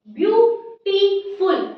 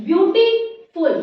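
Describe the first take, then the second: First: beautiful very slowly as view, टी, फुल; a clear pause after each syllable of beautiful; three separate syllables. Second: beautiful slowly, split as beauty, pause, फुल; pause inside beautiful. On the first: Teacher counting three syllables for students, beautiful broken into view, टी, फुल. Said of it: "three syllable आ गए". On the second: Teacher showing the same pause in another word, beautiful split before फुल. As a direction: hold back फुल after a gap in beautiful. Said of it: "इसी तरह से". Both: Shown as a demonstration.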